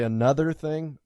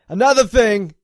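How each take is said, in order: First: It is said in a standard accent. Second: It is said in a New York accent. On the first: "I normally say another thing" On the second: "I said that in a New Yorker accent"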